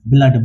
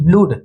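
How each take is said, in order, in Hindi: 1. स्वर छोटी 'uh' ध्वनि है। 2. स्वर लंबी 'oo' ध्वनि है। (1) "इनका उच्चारण हो जाता है अ से" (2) "हम लोग इसे ब्लूड बिल्कुल नहीं बोलेंगे"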